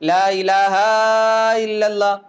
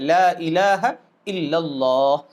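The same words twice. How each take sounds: First: A vowel in the phrase is stretched out long. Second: The vowels are kept short without any stretching. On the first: The speaker calls it wrong. "बहुत से लोग ला इलाहा इल्लल्लाह में कहते हैं" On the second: The speaker calls it right. "नहीं भाई, वहां खींचना नहीं है"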